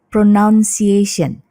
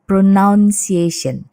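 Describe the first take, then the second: First: The second syllable sounds like noun. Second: The same.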